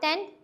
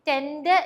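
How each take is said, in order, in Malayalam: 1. അവസാനത്തെ D ഏതാണ്ട് നിശ്ബ്ദമാണ്, വളരെ കുറച്ചേ കേൾക്കൂ. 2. അവസാനത്തെ D വ്യക്തമായും ശക്തമായും ഉച്ചരിക്കുന്നു. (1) "D is like very like partially silent" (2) "tend എന്ന് പറയരുത്"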